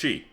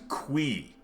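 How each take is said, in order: First: It begins with a ch sound. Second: It begins with a kw sound. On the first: It follows the Mandarin romanization. The speaker calls it right. "like the like pinyin pronunciation" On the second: It is the creator's intended pronunciation. The speaker calls it wrong. "Eric says it's pronounced qui, which is fucking nonsense"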